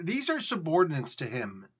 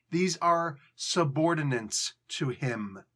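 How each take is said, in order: First: Said in the usual way. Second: "are" leaned on, spoken slowly; slow emphatic repeat. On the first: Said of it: "repeated for emphasis". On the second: Shown as a demonstration. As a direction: drive "These are subordinates to him" home slowly. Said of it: "repeated slower".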